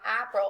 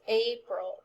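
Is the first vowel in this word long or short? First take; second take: short; long. First: The first vowel is a short A. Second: The first vowel is a long A. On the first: The speaker calls it wrong. "So it's not April" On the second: The speaker calls it right. "it's April"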